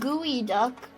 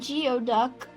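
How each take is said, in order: First: It is said like 'gooey duck'. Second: It is said like 'gee-oh duck'. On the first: The speaker calls it right. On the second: The speaker calls it wrong.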